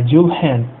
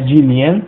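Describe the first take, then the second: First: The H is pronounced after the L. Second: The H is replaced by a y-sound. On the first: The speaker calls it right. "Dil, né, e Hen, então é Dilhen" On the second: The speaker calls it wrong. "não é Dilien"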